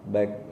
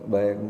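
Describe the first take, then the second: Both takes have the same delivery.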